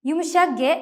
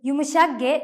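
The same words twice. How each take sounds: Both takes have the same delivery.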